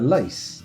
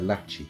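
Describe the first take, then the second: First: The word is said as one syllable. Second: The word is said as two syllables. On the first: It is read the way it is spelt. "we could call it a lace" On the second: It is said the way elves would say it. "I think elves would pronounce it lachi"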